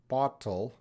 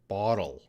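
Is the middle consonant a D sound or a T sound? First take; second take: T sound; D sound. First: The middle consonant is a clear T sound. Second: The middle consonant sounds like a D. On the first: "I'm trying to say it with a T sound" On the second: "and with a D sound"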